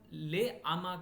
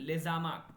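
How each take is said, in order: First: No z sound; the words stay separate. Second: A z sound links the two words. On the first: The speaker calls it right. "यहां पे हम ले आमा की पढ़ेंगे" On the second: The speaker calls it wrong. "Incorrect है"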